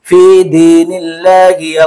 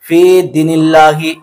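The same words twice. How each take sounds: First: The 'ya' vowel is drawn out long. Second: The 'ya' vowel is short. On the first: The speaker calls it right. "या को आपको खींचना है" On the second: The speaker calls it wrong. "ये गलती कर देते हैं"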